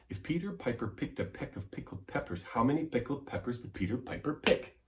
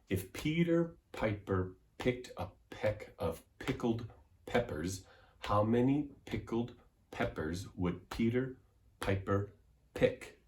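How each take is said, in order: First: It is said quickly. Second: It is said slowly.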